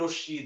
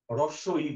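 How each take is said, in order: First: The two words are merged into one word. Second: The two words are said separately and fully. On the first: The speaker says it without thinking about its meaning. The speaker calls it wrong. "অনেকে বলি রস্যি" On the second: The speaker is aware of what the name means. The speaker calls it right. "হ্রস্ব ই বলি আমরা"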